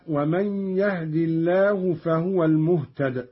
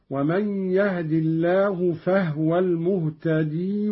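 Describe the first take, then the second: First: Said in the usual way. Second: "المهتدي" ending in long ee; ya kept. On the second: Shown as a demonstration. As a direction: join on from "المهتدي" with a long final ee. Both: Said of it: "بإثبات الياء وصلا فقط هكذا".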